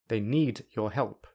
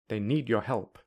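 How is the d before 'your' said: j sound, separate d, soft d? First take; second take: separate d; soft d. First: The d and your are kept separate. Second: The d is dropped or softened. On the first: "I will say them without linking" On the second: "I will say them without a d or a softer d"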